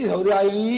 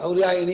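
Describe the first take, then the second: First: The final vowel is drawn out long. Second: The final vowel is kept short. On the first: This is the irregular form used in scripture. "ಶ್ರುತಿ ಸೌರ್ಯಾಯಿನಿ ದೀರ್ಘ ಮಾಡಿದೆ" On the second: This is the form the grammar rules require. "ಸೌರ್ಯಾಯಿನಿ ಅಂತ ಆಗ್ಬೇಕು"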